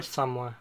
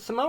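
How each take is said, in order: First: "Samoa" as SAHM-wah; two-syllable Samoa. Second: "Samoa" as suh-MO-uh; three-syllable Samoa. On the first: Offering friend the other way, "Samoa" as SAHM-wah. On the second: Offering friend one way to say it, "Samoa" as suh-MO-uh. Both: Shown as a demonstration. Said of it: "I've heard it pronounced both ways".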